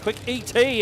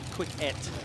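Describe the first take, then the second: First: ET is said as two separate letters. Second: ET is said as a single word. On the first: The speaker calls it right. "I think I'll go back to saying Quick E T" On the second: The speaker calls it wrong. "Maybe it should be Quick Et"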